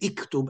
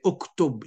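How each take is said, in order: First: The word begins with a front 'i' vowel. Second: The word begins with a rounded 'u' vowel. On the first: The speaker calls it wrong. "You don't say iktub" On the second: The speaker calls it right. "You say uktub"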